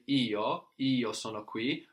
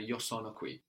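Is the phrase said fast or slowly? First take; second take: slowly; fast. First: The phrase is said at a slower pace. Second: The phrase is said at a faster pace.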